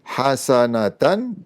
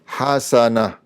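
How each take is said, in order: First: It ends in a full syllable with n. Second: It ends in a cut-off h sound. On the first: The reading continues without stopping. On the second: The reader stops on this word.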